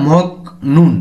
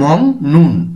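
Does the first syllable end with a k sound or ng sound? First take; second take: k sound; ng sound. First: The first syllable ends in a k sound. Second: The first syllable ends in an ng sound. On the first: The speaker calls it wrong. "এভাবে না বলে" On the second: The speaker calls it right. "গিয়কটিকে অনুসারের মতো উচ্চারণ করে থাকি"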